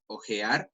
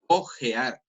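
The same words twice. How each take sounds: First: Said in the usual way. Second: Second "ojear" with its opening o slightly drawn out; lengthened vowel. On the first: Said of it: "En teoría una cosa es ojear". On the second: Shown as a demonstration. Teacher contrasts the silent-H word, "ojear" with a lengthened initial o. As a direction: stretch the first vowel of "ojear". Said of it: "Un pequeño alargue a la vocal".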